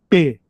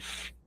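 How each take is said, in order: First: It is a hard P sound. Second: It is a soft F sound. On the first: "uma letra com som duro" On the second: "Tirou o ponto de dentro, fica F. Aí ela enfraquece"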